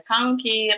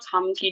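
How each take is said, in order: First: The first syllable ends in an ng sound. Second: The first syllable ends in an m sound.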